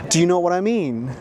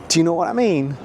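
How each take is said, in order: The two takes are said the same way.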